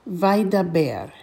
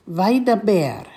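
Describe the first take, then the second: The two takes are said the same way.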